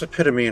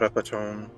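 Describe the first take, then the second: First: The word does not end like 'tome'. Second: The word ends with a sound like 'tome'. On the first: The speaker calls it right. "it's epitome" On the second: The speaker calls it wrong. "not epitome. It's not a book"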